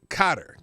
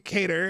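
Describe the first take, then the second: First: The word begins like 'cot', as in 'Kotter'. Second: The word begins like 'cay', rhyming with 'later'. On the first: "I thought it's probably pronounced like that" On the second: "Some say cater. It's not cater"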